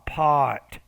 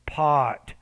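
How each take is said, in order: No difference in how they are said.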